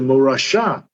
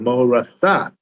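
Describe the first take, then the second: First: The middle consonant is pronounced 'sh'. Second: The middle consonant is pronounced 's'. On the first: It is an inheritance. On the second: It is a betrothal.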